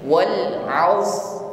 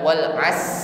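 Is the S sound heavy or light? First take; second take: heavy; light. First: The S sound is thick and heavy. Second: The S sound is thin and light. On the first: The speaker calls it right. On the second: The speaker calls it wrong. "bukan wal as as sebagaimana tipisnya huruf sin"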